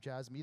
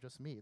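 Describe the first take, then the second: First: The first syllable sounds like 'jazz'. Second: The first syllable sounds like 'just'. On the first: The speaker calls it wrong. "I don't introduce myself as Jazz or Jazz Meat anymore" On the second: The speaker calls it right. "I introduce myself as Just or Just Meat"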